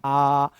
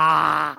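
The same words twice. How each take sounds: First: Said in the usual way. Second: आ stretched out slowly, mouth overly wide; exaggerated aa. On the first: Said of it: "इसको normal बोलना है". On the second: Shown as a demonstration. Teacher shows the wrong, exaggerated आ to students. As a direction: overdo the आ, long and wide. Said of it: "ऐसे नहीं इसको बोलना है".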